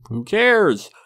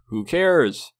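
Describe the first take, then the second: First: "Who cares?" pitched higher and louder, fed up; sarcastic fan waving off the question, louder; emphatic dismissal. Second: Said in the usual way. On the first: Real, not acted. Repeat of dismissal, pushed harder.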